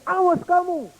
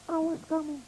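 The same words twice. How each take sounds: First: Put-on high child's threat; angry threat. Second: Much softer, far away; echo of the threat. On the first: Furious little boy threatening the echo, high and sharp. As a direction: warn the voice off. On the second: Pretend. Echo returning the threat, faint and distant. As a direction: fade it back as an echo.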